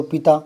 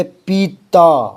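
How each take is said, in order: First: पिता with a quick pi straight into ता; no time on the i of पिता; short vowel. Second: पीता slow, with a drawn-out pee; long vowel. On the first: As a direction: say पिता briskly, "pi-taa". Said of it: "पी बोलती ता बोलो". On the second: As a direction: stretch the ī of पीता before ता. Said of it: "यहाँ थोड़ा time ज़्यादा लगेगा". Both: Shown as a demonstration.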